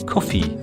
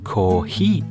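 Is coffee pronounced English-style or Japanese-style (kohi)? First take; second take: English-style; Japanese-style. First: The word is said like English coffee. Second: The word is said like Japanese kohi. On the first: The speaker calls it wrong. "Although it's an English word, we say kohi" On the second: The speaker calls it right. "we say kohi"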